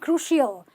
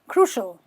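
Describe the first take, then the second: First: The ending sounds like 'ill'. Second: The ending sounds like a short 'ul'. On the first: The speaker calls it wrong. "not crucial" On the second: The speaker calls it right. "They're just ul"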